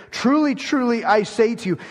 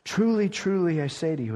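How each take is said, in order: First: "Truly, truly" higher and louder, each word hammered; emphatic. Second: Said in the usual way. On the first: Shown as a demonstration. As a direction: proclaim "Truly, truly" with force, pitched up. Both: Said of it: "Okay, this is emphatic".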